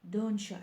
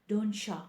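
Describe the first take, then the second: No difference in how they are said.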